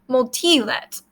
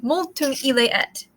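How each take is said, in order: First: The vowels are dropped, running all words together. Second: All three words are said in full, separately. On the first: "the speaker would say multilet" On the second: "instead of multum ile et"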